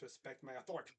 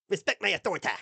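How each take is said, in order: First: It is said in his own normal voice. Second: It is said in a Cartman impression.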